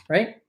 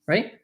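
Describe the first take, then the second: The two takes are said the same way.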